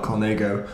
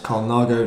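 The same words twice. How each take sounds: First: Colnago said as "col-NAY-go"; "ay" in the middle of Colnago; mispronounced Colnago. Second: Colnago said as "col-NAH-go"; correct Colnago pronunciation. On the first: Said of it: "it's pronounced Colnago, not". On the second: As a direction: open "ah" in the middle of Colnago. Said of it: "Do you realise it's pronounced". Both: Shown as a demonstration.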